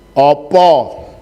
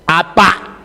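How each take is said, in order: First: It is said in the eastern Jogja-Solo way. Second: It is said in the western Banyumas way. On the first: "Bahasa Jawa daerah Jogja, Solo dan seterusnya ke timur" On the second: "bahasa Jawa dari Banyumas ke barat"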